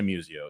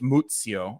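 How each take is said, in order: First: The name is said with an American pronunciation. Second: The name is said with an Italian pronunciation. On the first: This is how the name is said in America. "We all say Museo" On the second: This is how the name is said in Italy. "if you're over over over the pond, it's Muzio"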